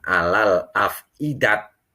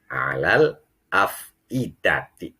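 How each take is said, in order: First: The last word ends with a t sound. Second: The last word ends with a ti sound. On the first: The reading stops at this word. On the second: The reading continues without stopping. "Ini kalau dibaca wa wasol"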